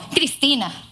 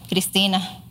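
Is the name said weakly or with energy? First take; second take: with energy; weakly. First: The name is said strongly, with energy. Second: The name is said weakly, without energy.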